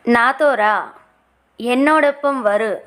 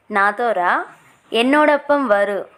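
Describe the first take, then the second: No difference in how they are said.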